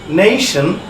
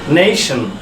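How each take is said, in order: Both takes have the same delivery.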